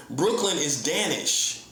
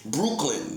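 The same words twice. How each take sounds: First: Said in the usual way. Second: Brooklyn said with an oo vowel, like Bruklin; Danish pronunciation. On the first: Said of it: "that's how you say it". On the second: Shown as a demonstration. Teaching viewers the old Danish Brooklyn, with an oo vowel. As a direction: say Brooklyn with a U sound, Brook as Bruke. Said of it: "that's how you say it, with a U".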